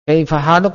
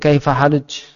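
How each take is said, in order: First: The last word ends with a k sound. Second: The last word ends with a j sound. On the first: "Kaifa haluk menjadi kaifa haluj" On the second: "Jadi K menjadi Ja"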